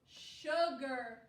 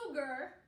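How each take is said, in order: First: It begins with a sh sound. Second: It begins with a plain s sound. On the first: The speaker calls it right. "This says more of a sh sound" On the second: The speaker calls it wrong. "We don't say sugar"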